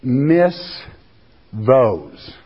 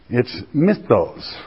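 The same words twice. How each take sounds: First: "Miss those." split into two slow words; said slower. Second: A quick "mythos"; Greek word. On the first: Preacher slowing down the Greek word for the congregation. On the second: Preacher first giving the Greek word, said quickly. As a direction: say "mythos" quickly, run together. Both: Shown as a demonstration. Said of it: "Let me say it slower".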